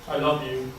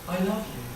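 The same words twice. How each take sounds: First: It is said flatly, with little vocal expression. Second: It is said with much more vocal expression.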